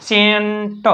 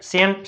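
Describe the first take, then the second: First: સેન્ટ held long through ન, ટ released separately; blending sounds. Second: Said in the usual way. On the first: Shown as a demonstration. Teacher putting એન ટી together, સેન્ટ drawn out. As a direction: draw out સેન્ટ, joining ન and ટ slowly. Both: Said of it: "એન ટી કરી નાખો ભેગું".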